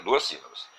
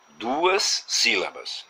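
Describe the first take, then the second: First: Said in the usual way. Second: Duas sílabas stretched very slowly, the s held long; teacher stretching the words; slow and drawn out. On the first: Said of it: "né?". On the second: Shown as a demonstration. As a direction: spell it out slowly for the class. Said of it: "essa palavra teria".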